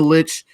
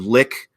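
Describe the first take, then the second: First: The word ends with a 'ch' sound. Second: The word ends with a 'k' sound.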